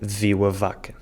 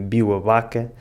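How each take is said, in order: First: The first word starts with a V sound. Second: The first word starts with a B sound. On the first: This is the usual way to say it. "em vez de viu a vaca" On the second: This is how northern speakers say it. "Tanto a Bárbara do Porto como o Miguel de Braga dizem biu a vaca"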